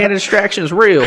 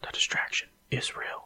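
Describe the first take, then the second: First: It is said in a put-on Florida accent. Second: It is said in his ordinary accent.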